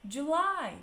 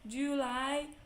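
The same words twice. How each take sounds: First: The stress is on the last syllable. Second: The stress is on the first syllable. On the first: The speaker calls it right. "July is at the end" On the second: The speaker calls it wrong. "We don't say"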